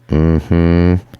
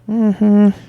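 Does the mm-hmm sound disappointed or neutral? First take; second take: disappointed; neutral. First: It sounds disappointed. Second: It sounds neutral, not disappointed.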